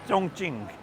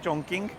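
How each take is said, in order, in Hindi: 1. दूसरा अक्षर ch की आवाज़ से शुरू होता है। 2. दूसरा अक्षर k की आवाज़ से शुरू होता है। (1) "एक्चुअल में जो सिटी का नाम है" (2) "इसकी स्पेलिंग लिखी जाती है"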